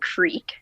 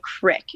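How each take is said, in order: First: The vowel is long, like in 'creek'. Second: The vowel is short, like in 'crick'. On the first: This is how other people say it. "so you call it a creek" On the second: This is how people back home say it. "We call it a crick"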